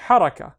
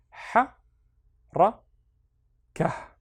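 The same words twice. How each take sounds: First: HARAKA run together as one word, loud and higher; loud, joined-up model reading of "haraka"; syllables joined. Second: "ha, ra, ka" with long pauses between syllables; broken-up reading, one short "ha", "ra", "ka" at a time. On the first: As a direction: connect it into a firm, unbroken "haraka". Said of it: "and then connect them". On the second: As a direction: sound out each syllable of "ha, ra, ka" separately. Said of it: "read each one on its own". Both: Shown as a demonstration.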